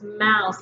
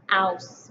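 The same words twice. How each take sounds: First: Said in the usual way. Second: Ouse alone after the m; segmented rime. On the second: Shown as a demonstration. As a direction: say just the ouse part. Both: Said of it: "for mm".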